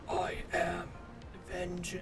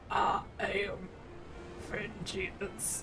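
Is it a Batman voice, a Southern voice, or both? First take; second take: Batman; both. First: It is a deep, gravelly Batman voice. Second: It is a gravelly Batman voice, Southern too.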